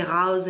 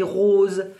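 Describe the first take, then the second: First: "rose" with an open southern French vowel; southern French pronunciation of "rose"; southern French accent. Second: "rose" with a closed northern French o; northern French pronunciation of "rose"; northern French accent. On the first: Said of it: "dans le sud, on dit rose". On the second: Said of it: "dans le nord, on dit rose". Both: Shown as a demonstration.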